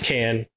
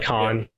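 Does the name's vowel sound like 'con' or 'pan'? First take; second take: pan; con. First: The vowel sounds like the one in 'pan'. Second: The vowel sounds like the one in 'con'. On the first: The speaker calls it right. "It's Can" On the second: The speaker calls it wrong. "a commonly mispronounced name is Alec Can. People like to say Alec Khan"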